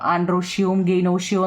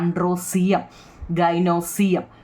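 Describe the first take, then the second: First: The words are said with an sh sound. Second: The words are said with an s sound. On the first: This is the correct pronunciation. "എന്നാണ് correct പറയുന്നത്" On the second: This form helps with the spelling. "ഞാൻ എപ്പോഴും അങ്ങനെ പറഞ്ഞു കൊടുക്കത്തുള്ളൂ"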